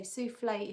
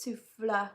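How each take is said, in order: First: "souffle" with an AY ending, soo-flay; dessert pronunciation. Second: "souffle" ending in UH, soo-fluh; breath-word pronunciation. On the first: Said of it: "depends where the accent is". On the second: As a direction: say "souffle" the French way, without the AY. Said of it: "it means a breath". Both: Shown as a demonstration.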